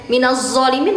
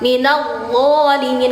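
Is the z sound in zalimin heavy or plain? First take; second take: plain; heavy. First: The z sound is plain, made without tongue tip. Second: The z sound is heavy, tongue tip at upper teeth. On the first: The speaker calls it wrong. "bukan zo ya" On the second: The speaker calls it right. "ujung lidah bertemu gigi depan atas, disertai pangkal lidah terangkat"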